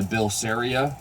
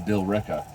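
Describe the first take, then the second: First: The name is said as Bilceria. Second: The name is said as Billerica. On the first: The speaker calls it wrong. "I've been saying it or thinking it wrong" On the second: The speaker calls it right. "is actually"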